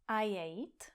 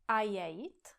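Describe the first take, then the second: No difference in how they are said.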